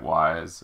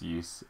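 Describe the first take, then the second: First: The name sounds like the English word wise. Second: The name does not sound like the word wise. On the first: This is how some other people say it. "some people pronounce it Wise" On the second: This is how the speaker believes it is said. "I'm pretty sure it's pronounced Ys"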